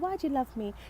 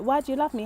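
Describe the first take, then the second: First: It sounds playful, fishing for compliments. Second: It sounds sincere and genuinely questioning.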